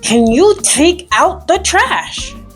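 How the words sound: The tone is annoyed and exasperated. The request has been made many times before. "Here's annoyed like you've asked fifty billion times"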